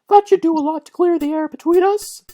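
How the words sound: It is said in a high falsetto voice.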